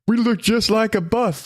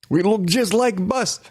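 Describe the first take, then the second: First: It is said in the speaker's plain accent. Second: It is said in a put-on Russian accent.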